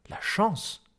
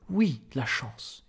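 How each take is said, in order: First: High, stunned question; incredulous echo. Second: Slow, emphatic affirmation; insist, drawing the words out; assured confirmation. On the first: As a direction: echo it in disbelief, pitch jumping up. Incredulous echo, then the answer. (incrédule, voix aiguë) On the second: Director confirms against the echo. (affirmation lente et assurée) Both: A narrator's reading.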